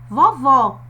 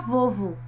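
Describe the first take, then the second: First: The final o is open and strong. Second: The final o is closed and weak. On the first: "som aberto" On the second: "o O vai perder a força"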